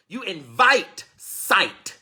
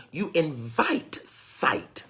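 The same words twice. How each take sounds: First: Very slow, louder, higher stretch of invite; slow emphatic. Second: Slow emphasis. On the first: Preacher repeating the point to the congregation, slow and emphatic. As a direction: drag each word out, pressing invite. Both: Shown as a demonstration.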